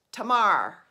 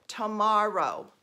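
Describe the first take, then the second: First: Tamar clipped to two syllables, loud; mock Baltimore Tamar, belted out; imitating mother-in-law's Baltimore Tamar; Baltimore accent. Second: Tomorrow in three clear syllables, slow; careful demo of Tomorrow. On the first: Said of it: "My mother-in-law says". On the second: Shown as a demonstration. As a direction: spell out Tomorrow as tuh-mar-oh. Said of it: "Three syllables".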